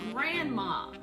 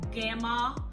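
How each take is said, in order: First: The word is said with all its sounds clearly. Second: The word is said without the r and n sounds. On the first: The speaker calls it right. "Simply repeat the correct pronunciation" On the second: The speaker calls it wrong. "If your child says gamma"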